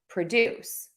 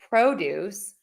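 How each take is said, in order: First: The stress is on the second syllable. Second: The stress is on the first syllable. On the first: It names an action. "when you make something to produce" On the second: It names a thing. "the produce, which is vegetables"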